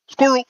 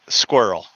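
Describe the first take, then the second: First: It is said in Doug from Up's voice. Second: It is said in a normal voice.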